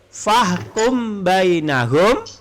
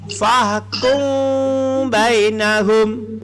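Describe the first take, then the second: First: The m is fully closed before the b. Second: The m is hidden with a nasal hum. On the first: The speaker calls it wrong. "tanpa tajwid" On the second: The speaker calls it right. "menjadi fahkum bainahum"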